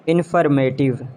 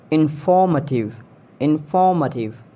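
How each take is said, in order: First: "Informative" as IN-fer-MAY-tiv; AY sound in "Informative"; mispronounced informative. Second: "Informative" as in-FAW-muh-tiv; British pronunciation. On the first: Acted. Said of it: "you have to correct me". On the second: Shown as a demonstration. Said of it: "exact pronunciation according to the British".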